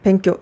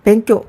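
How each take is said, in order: The two takes are said the same way.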